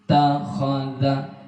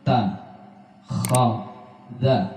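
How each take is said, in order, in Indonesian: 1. Suku katanya disambung menjadi satu kata. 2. Suku katanya dipisahkan dengan jeda. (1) "langsung dibaca takhadha" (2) "tidak dibaca ta khadha"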